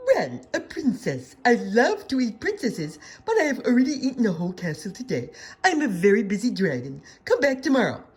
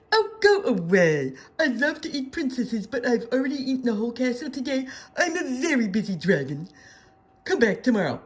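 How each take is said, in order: First: Loud, booming dragon brushing her off; a busy dragon laughing at the princess. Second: Louder, impatient dragon snapping go away; annoyed dragon. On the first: Dragon at the door, dismissing Elizabeth, loud and gruff. Dragon voiced in read-aloud story. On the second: Dragon at the door, dismissing Elizabeth a second time, impatient. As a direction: shoo her off, fed up. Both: A narrator's reading.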